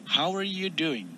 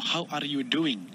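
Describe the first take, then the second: First: The word 'are' is softened and reduced. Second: The word 'are' is pronounced fully and clearly. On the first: "bisa diperhalus kata are-nya" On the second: "tidak perlu mem- mengucapkan are dengan jelas ya. Misalnya"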